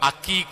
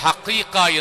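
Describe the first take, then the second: First: It begins with a plain a and hard k. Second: It begins with an h sound. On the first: "ചിലപ്പോഴൊക്കെ നമ്മുടെ സംസാരത്തിൽ അക്കീക്ക എന്ന് പറയും" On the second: "ചിലപ്പോൾ ഹഖീഖ എന്ന് പറയും"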